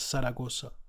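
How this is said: The z letters sound like s. "they will pronounce it as Zaragoza... won't make a difference between the S and the Z"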